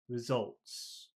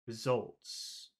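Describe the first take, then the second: First: The stress is on the second syllable. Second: The stress is on the second syllable.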